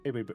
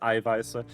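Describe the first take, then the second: First: The word has a B sound before the end. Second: The word has a sharp S sound before the end. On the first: The speaker calls it wrong. "that thing doesn't make the B sound" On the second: The speaker calls it right. "It makes the S sound from hiss"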